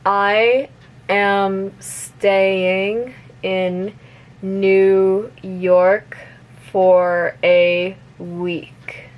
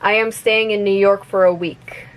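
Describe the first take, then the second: First: The sentence is spoken at a moderate speed. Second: The sentence is spoken at normal, fast speed. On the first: "a little bit faster" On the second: "one more time at normal speed"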